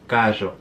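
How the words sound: The R sound is buzzy, like 'zh'. "the R will be more like ella"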